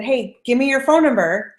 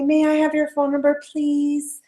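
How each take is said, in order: First: Slow, direct confident request; confident ask. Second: A higher, hesitant polite request; timid polite ask. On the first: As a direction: ask straight out, sure of yourself. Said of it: "I'm confident". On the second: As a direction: ask as if afraid to bother. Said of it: "I didn't say". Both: Shown as a demonstration.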